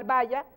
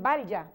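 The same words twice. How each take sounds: First: "vaya" with ll said just like y; "vaya" with no l sound; Venezuelan pronunciation. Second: "vaya" with an audible l before the y, like bal-ya; "vaya" with a distinct ll; Colombian pronunciation. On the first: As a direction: say "vaya" as ba-ya, plain consonant y. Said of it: "la pronunciamos igual". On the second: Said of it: "En Colombia dirían". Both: Shown as a demonstration.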